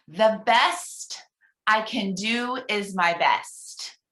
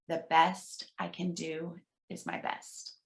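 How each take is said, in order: First: Said in the usual way. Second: Soft, slow hushed repeat; half-whispered echo. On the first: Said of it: "in my full volume". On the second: Shown as a demonstration. Leader softly repeats the affirmation for a muted group, hushed. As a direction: hush it back gently for the group. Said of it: "I'll whisper it kind of in the second one".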